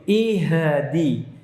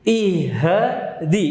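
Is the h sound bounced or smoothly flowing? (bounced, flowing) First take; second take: bounced; bounced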